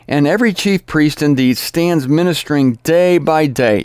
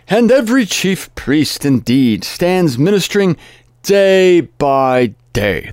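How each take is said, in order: First: It is read in the speaker's plain voice. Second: It is read with a put-on Jewish accent.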